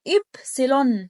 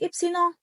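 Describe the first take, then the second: First: It is said with German pronunciation. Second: It is said with French pronunciation. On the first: The speaker calls it right. "المهم ان هي إبسيلون" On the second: The speaker calls it wrong. "مش إبسيلون. إبسيلون ده فرنسي"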